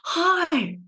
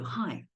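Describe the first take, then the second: First: The greeting sounds eager to please. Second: The greeting sounds plain and neutral. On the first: The speaker wants to please the listener. "it's the pleasing tone" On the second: The speaker simply greets the listener. "For nines, we say hi. We'll just greet you"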